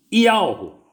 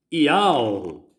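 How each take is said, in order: First: Ialro said high and loud, stressed; name demo. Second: Ialro said again at normal pitch, calmer; name repeated. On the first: Preacher showing his congregation the name, Ialro raised high. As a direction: proclaim Ialro up high and strong. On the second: Preacher repeating the name for listeners, Ialro said evenly. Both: Shown as a demonstration. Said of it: "tem um H finalizando ali".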